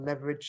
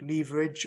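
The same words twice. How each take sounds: First: It is said with an American pronunciation. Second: It is said with a non-American pronunciation.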